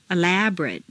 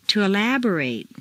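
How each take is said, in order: First: "Elaborate" ending in weak "-rut"; reduced ending. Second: "elaborate" ending in long "-RATE"; full A ending. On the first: Teacher models adjective "Elaborate" with reduced final vowel. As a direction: shrink the last vowel of "Elaborate". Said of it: "completely reduced". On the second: Teacher models verb "elaborate" with full final A. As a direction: open out the last A of "elaborate". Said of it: "it's a full A sound". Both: Shown as a demonstration.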